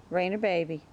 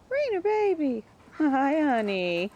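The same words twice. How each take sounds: First: Said in the usual way. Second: Very high sing-song voice for the dog. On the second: Real, not acted. Baby-talking to her dog.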